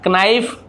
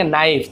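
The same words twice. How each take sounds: First: नाइफ with a k sounded first, "ka-naif"; गलत उच्चारण. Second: नाइफ starting straight on n; सही उच्चारण. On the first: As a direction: misread नाइफ as "kanaif". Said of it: "नहीं पढ़ेंगे". (नाइफ से पहले क बोलकर, "कनाइफ") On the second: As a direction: say नाइफ with a silent K. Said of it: "आप पढ़ेंगे नाइफ". (नाइफ, बिना क की आवाज़ के) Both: Shown as a demonstration.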